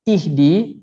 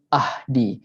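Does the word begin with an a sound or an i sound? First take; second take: i sound; a sound. First: The word begins with an i vowel. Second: The word begins with an a vowel. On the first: The speaker calls it right. "macam ihdi" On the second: The speaker calls it wrong. "dia tak ada bunyi ahdi"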